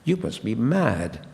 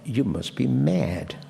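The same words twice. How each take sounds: First: The vowel in mad is more open. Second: The vowel in mad is closer. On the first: This is the modern pronunciation. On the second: This is the older pronunciation.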